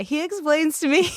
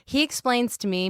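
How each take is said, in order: First: Higher, choked-up retelling; on the verge of tears; close to crying. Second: Said in the usual way. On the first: Real, not acted. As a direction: start to well up as you speak. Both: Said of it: "maybe I will cry".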